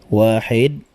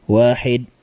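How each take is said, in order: The two takes are said the same way.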